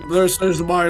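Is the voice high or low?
low. The voice is pitched very low. "this is my lowest voice"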